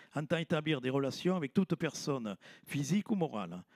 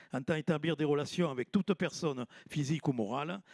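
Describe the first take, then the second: No difference in how they are said.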